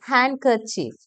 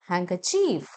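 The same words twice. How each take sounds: First: The first syllable has a plain 'n' sound. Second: The first syllable has an 'ng' sound. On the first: The speaker calls it wrong. "നമ്മൾ പറയും" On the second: The speaker calls it right. "ങ sound വരുന്നുണ്ട്"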